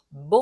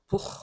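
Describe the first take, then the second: First: The first consonant is fully voiced, almost nasal. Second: The first consonant has a puff of breath. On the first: The speaker calls it right. "근데 그렇게 하지 말고 뭐 하란 말이에요" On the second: The speaker calls it wrong. "여러분이 부 하면은 이게 약간 날숨이 섞인 소리가 나오거든요"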